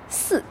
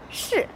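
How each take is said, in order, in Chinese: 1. 它是以 s 音开头的。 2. 它是以 sh 音开头的。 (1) "他们可能会发成四" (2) "比如是"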